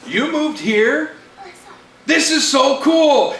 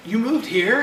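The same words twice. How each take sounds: First: Slow, high, drawn-out amazement; excited disbelief. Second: Lightly acted surprised question; a touch of happy disbelief; mildly surprised boy. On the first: Acted. Friend echoes the reunited boy, excited and amazed. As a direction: echo it back like a thrilled kid. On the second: Boy asks his reunited friend, mildly surprised. First of two surprised boys, milder take.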